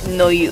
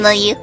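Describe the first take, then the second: First: It is said in a ghostly put-on voice. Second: It is said in a higher-pitched voice. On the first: The speaker calls it wrong. "you still did ghost voice" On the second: The speaker calls it right. "Yeah, like that"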